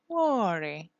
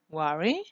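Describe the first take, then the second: First: The pitch falls at the end. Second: The pitch rises at the end.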